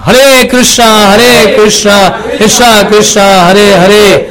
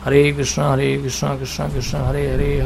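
First: The mantra is said in a loud voice. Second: The mantra is said in a soft voice. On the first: This is the spoken-aloud style of repetition. "वाचिक जप का मतलब होता है जोर से उच्चारण करना" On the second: This is the everyday murmured style of repetition. "इसको कहते हैं उपांशु जप"

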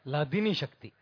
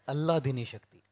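First: The first word starts without an added vowel. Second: The first word starts with an added vowel. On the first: The speaker calls it right. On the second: The speaker calls it wrong. "devotees pronounce as Alladini Shakti"

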